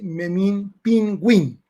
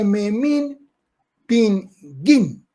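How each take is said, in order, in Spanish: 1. La u después de la g se pronuncia. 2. La u después de la g es muda. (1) "realmente casi que todos lo preguntábamos así" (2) "venía de una ciudad llamada Pingo, que por eso se decía Pinguín"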